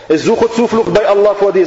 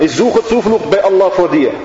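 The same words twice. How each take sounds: First: Higher, insistent repeated plea; a mild hint of the girl pleading over and over; girl repeating her plea. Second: Lightly voiced frightened girl, pleading; a touch of a scared plea for protection; girl seeking refuge. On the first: The girl repeating her plea to the devil, mildly insistent. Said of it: "sagt immer wieder das kleine Mädchen". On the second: The dying girl pleading against the devil, mildly scared. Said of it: "Sie sagt".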